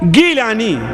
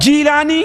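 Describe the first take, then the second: First: The name begins with a g sound. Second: The name begins with a j sound. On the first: This is the original form of the name. "असल में इसका तलफ़्फ़ुज़ गीलान गाफ के साथ है" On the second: This is the form used where Arabic lacks the g sound. "उसका तलफ़्फ़ुज़ जीम से किया"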